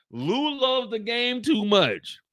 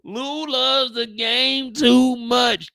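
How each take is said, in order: First: Said in the usual way. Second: Very slow, with the word too stretched and stressed; drawn-out emphasis. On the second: Shown as a demonstration. Narrator repeating, slowly stressing too much.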